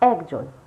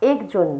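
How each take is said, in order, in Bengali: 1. প্রথম স্বরধ্বনিটি খোলা ae ধ্বনি। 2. প্রথম স্বরধ্বনিটি বদ্ধ e ধ্বনি। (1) "অয় জফলা আকার ক বর্গীয় ন" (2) "যেমন একজন নয়"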